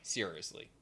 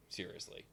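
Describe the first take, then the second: First: Said in the usual way. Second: Whispered. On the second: Retold or imitated. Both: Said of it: "And Leo's like".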